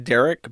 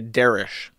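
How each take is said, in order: First: The name ends with a 'k' sound. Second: The name ends with an 'sh' sound. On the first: This is how the name is expected to be said. The speaker calls it right. "it's very obvious that his name is supposed to be Derek" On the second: This is how the man himself says his name. The speaker calls it wrong. "he mispronounces his own name"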